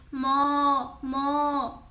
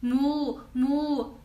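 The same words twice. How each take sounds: First: Chinese cow moo. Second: Drawn-out lowing moo moo; Swedish cow moo. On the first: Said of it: "we say". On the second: Showing viewers the Swedish cow sound, lowing. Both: Shown as a demonstration.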